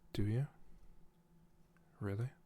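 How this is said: It is split into two separate questions.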